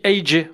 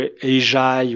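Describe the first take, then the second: First: The name is said as two separate letters. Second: The name is said as one two-syllable word. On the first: The speaker calls it right. "on dit A J" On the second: The speaker calls it wrong. "on dit pas ... ou Ajay"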